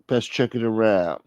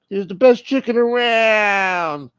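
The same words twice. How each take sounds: First: Said in the usual way. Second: High, loud, stretched-out mock cry; exaggerated high-pitched repeat; high drawn-out holler. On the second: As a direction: draw it out high in a put-on voice. Repeats phrase in put-on holler.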